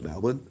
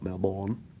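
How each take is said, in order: First: It is pronounced the way locals say it. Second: It is pronounced the way outsiders say it. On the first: The speaker has local knowledge. The speaker calls it right. "you know to call it Melbourne" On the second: The speaker lacks local knowledge. The speaker calls it wrong. "and not Melbourne"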